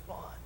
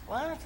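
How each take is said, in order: First: Very soft, voiceless quick question; barely audible whispered query; hushed question. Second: High, rising puzzled query; high-pitched imitation of a baffled helper; baffled question. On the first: Retold or imitated. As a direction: whisper back a puzzled reply. Helper answers him during service. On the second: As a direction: squeak it upward, not getting the hint. Helper still fails to understand him.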